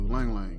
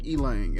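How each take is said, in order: First: The word begins directly with an 'l' sound. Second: The word begins with an 'ee' vowel sound. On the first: This is how the speaker says it. "he pronounced it the same way I do" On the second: Someone else said it this way. "I've heard somebody say Elang"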